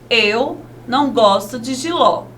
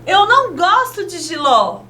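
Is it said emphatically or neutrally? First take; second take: neutrally; emphatically. First: It is said neutrally, like a plain statement. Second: It is said emphatically, like an exclamation.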